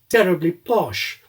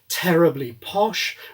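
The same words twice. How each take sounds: First: The consonants have little aspiration. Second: The consonants are strongly aspirated. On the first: It sounds very upper-class. "terribly posh with less aspiration" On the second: It sounds not very upper-class. "not terribly posh with aspiration"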